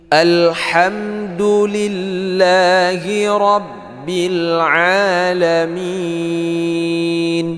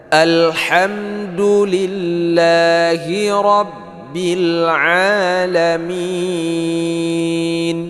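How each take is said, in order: No difference in how they are said.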